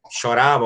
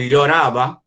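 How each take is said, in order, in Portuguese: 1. O primeiro som é como o 'sh' do inglês. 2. O primeiro som não é como o 'sh' do inglês. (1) "o espanhol argentino é o L H, o L L tem som de X" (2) "o espanhol é llorava"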